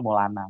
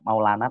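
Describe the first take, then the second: First: Maulana said as "Molana"; nickname pronunciation. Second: Said in the usual way. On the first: Shown as a demonstration. Explaining his childhood nickname, Maulana pronounced "Molana". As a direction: say Maulana with the first syllable shortened to "Mo". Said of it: "tapi panggilnya Maulana". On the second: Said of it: "kan dulu nama saya".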